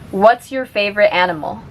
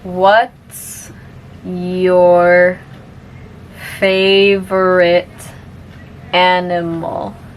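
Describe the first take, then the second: First: The sentence is spoken at normal speed. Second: The sentence is spoken very slowly. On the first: "one more time at normal speed" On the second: "I'll say it slowly first"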